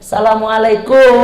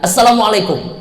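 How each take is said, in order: First: It is said slowly with drawn-out vowels. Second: It is said quickly without lengthened vowels.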